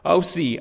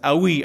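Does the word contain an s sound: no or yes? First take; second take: yes; no. First: The word has an s sound in it. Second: The word has no s sound in it. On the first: The speaker calls it wrong. "it's pronounced like "ausi" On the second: The speaker calls it right. "Sorry, there's no S. It's awi"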